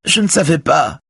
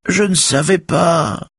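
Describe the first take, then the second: First: High, distressed woman's plea; acted crying voice, very high; tearful. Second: Drawn-out falsetto mimicry of a woman's plea; mocking, piping falsetto; high whining squeal. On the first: A narrator's reading. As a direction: plead tearfully, pitched far up. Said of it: "dit Véronique en pleurant". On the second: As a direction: whine it slowly in a put-on high voice. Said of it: "piaule Raphaël en désignant la télé".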